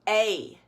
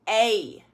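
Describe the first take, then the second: No difference in how they are said.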